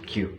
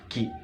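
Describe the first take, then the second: First: The letter is named with a 'kyoo' sound. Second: The letter is named with a plain 'kee' sound. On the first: The speaker calls it wrong. "tapi sering disebut disebut Q" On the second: The speaker calls it right. "Seharusnya disebut Ki"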